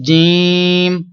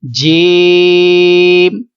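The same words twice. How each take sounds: First: जीम pushed through the nose, very slow; जीम with the sound sent into the nose; nasal wrong way. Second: जीम held very long and louder, no nasal sound; the right जीम, stretched out clean; जीम drawn out without going into the nose; correct way. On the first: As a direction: demonstrate the nasal जीम people use. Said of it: "नाक में आवाज ले जाते हैं". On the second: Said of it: "इसको कैसे पढ़ना आपने?". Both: Shown as a demonstration.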